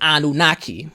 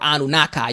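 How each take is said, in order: First: The final syllable sounds like 'key'. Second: The final syllable sounds like 'kai'. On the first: The speaker calls it right. "you say Enki, Anunnaki" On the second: The speaker calls it wrong. "you don't say Enkai or Anunnaki"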